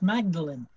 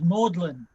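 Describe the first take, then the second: First: It is said as spelled, Mag-da-len. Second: It sounds like the word 'maudlin'. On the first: This is the local pronunciation in some places. "there are places where it is actually pronounced Magdalen" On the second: This is the widely known pronunciation. "everybody knows, I think, that uh, Magdalen is pronounced Magdalen"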